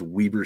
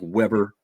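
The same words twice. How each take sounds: First: The first vowel is long, as in 'wee'. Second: The first vowel is short, as in 'web'. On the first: The speaker calls it right. "almost like it has two E's in there" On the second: The speaker calls it wrong. "It looks like Weber"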